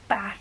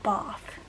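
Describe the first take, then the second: First: It has a short A, Black Country style. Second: It has a long southern A vowel.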